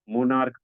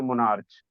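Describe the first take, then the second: First: The word ends with a k sound. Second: The word ends with a ch sound. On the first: The speaker calls it right. "मोनार्क पढ़ते हैं" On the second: The speaker calls it wrong. "इसे मोनार्च नहीं पढ़ा जाता है"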